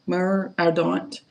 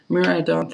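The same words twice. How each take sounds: First: "Mur Ardent" said slowly, each word drawn out; slow, careful reading of "Mur Ardent"; careful name. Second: Said in the usual way. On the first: Shown as a demonstration. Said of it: "Mur Ardent, repeated". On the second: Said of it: "Mur Ardent, first take".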